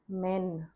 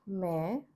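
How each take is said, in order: First: It ends with a full, clear N sound. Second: It ends with a subtle nasal vowel. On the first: The speaker calls it wrong. "Not men" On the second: The speaker calls it right. "is a very subtle N sound"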